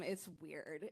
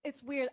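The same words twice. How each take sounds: First: A quiet, lower murmur to yourself; half under the breath, echoing yourself; muttered aside. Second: Said in the usual way. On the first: Real, not acted. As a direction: drop it low and soft to yourself.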